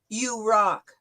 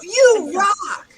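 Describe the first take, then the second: First: It is said flatly, without enthusiasm. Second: It is said with lively enthusiasm. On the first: The speaker calls it wrong. "you wouldn't say this" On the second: The speaker calls it right. "You put some enthusiasm behind it"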